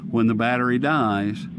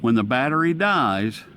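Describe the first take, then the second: No difference in how they are said.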